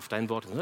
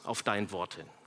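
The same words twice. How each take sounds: First: It is said in a willing, eager tone. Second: It is said in a defiant, grudging tone. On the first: The speaker obeys gladly and readily. "Nicht, ja" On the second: The speaker obeys reluctantly, against his own judgment. "das ist ein trotziges"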